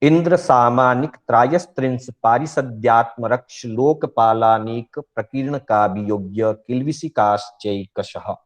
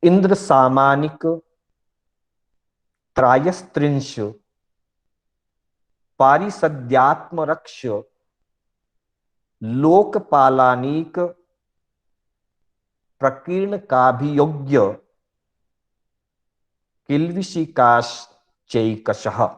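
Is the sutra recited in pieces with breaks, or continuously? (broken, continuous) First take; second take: continuous; broken. First: It is recited continuously without breaks between words. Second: It is recited slowly with breaks in several places. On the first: It is the main way to read a sutra. "इस तरह से सूत्र रूप में पूरा बोला जाएगा" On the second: It is split up so it can be understood and practised. "मैंने दो तीन जगह ब्रेक लेकर के इसका उच्चारण किया"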